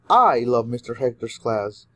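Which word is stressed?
I. The word I carries the main stress. Many people love it, but especially the speaker. "you're emphasizing that a lot of people love his class, but especially you"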